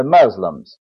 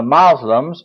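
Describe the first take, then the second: First: "Muslims" with a short "uh": MUZ-lums; other spelling. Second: "Muslims" with an open "ah": MAHZ-lums; alternate spelling. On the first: Preacher explaining two spellings of the word, second variant. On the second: Preacher explaining two spellings of the word, first variant. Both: Shown as a demonstration. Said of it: "or another spelling for that word".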